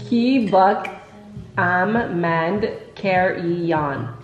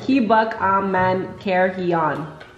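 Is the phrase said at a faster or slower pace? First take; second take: slower; faster. First: The phrase is said at a slower pace. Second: The phrase is said at a faster pace.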